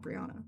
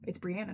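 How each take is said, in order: First: Brianna as bree-AW-nuh; wrong pronunciation. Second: Brianna as bree-ANN-uh; correct pronunciation. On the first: Speaker shows the version to avoid, Brianna with "aw". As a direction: say Brianna with "aw" in the middle. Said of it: "not Brianna". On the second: Speaker lets listeners know her real name, Brianna with "ann". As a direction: say Brianna with a short "ann" middle. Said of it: "it's Brianna, not Brianna". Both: Shown as a demonstration.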